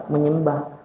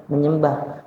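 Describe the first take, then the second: No difference in how they are said.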